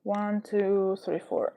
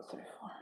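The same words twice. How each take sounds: First: Said in the usual way. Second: Soft breathy whisper into the mic; whispered count. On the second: Shown as a demonstration. ASMR streamer testing the mic, whispering. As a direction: count One, two, three, four in a hush. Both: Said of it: "Crora A S M R".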